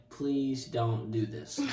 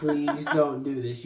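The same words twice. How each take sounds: First: Slow, understated pleading; retold plea. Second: Slow, firmer plea amid laughter; repeated mock plea. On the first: Begging the youth not to introduce him, slow retold plea. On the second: Begging the youth once more, slow mock plea amid laughter. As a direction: repeat it slowly, with a laugh around it.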